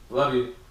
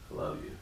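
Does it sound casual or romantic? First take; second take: casual; romantic. First: It is said quickly and casually, like to a friend. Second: It is said slowly and earnestly, with deep feeling. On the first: A friendly, offhand affection between buddies. "one sounds like love you, bro" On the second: The speaker is truly in love with the listener. "One sounds like no, I'm in love with you"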